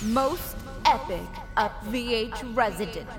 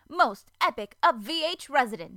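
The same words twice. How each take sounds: First: The voice has added echo and reverb. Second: The voice sounds dry, with no added echo. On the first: The speaker calls it right. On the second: The speaker calls it wrong.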